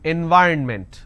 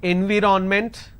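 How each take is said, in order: First: The middle syllable is reduced with no O. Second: The middle syllable has a full O vowel. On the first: The speaker calls it right. "N Y R N ment. So this is the correct pronunciation" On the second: The speaker calls it wrong. "you end up pronouncing N V R O N ment. Now this is wrong"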